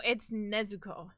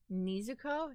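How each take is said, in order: First: Nezuko with a short "neh" first syllable; corrected Nezuko. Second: Nezuko with a long "nee" first syllable; mispronounced Nezuko. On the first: Shown as a demonstration. Correcting the coworkers' version, Nezuko pronounced "Nehzuko". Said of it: "No, it's Nezuko". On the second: Retold or imitated. Quoting the coworkers, Nezuko mispronounced as "Neezuko". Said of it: "Your coworkers were saying".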